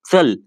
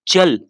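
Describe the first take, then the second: First: चल with a ts sound, as in Marathi; चल starting with ts, not ch; Marathi chal. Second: चल as in Hindi, ch like in church; Hindi chal. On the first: Teacher contrasts the Marathi चल using a ts sound. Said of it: "दोनों में काफ़ी अंतर है". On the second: Teacher shows students the Hindi चल with a ch sound. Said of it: "ध्यान से सुनना guys". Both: Shown as a demonstration.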